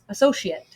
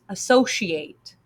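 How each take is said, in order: First: The last syllable is a weak 'ut' sound. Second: The last syllable is a full 'ate' sound. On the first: It is used as a noun or adjective. "it's a, so, she, ut. Associate" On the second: It is used as a verb. "it is a, so, she, ate. Associate, the verb form"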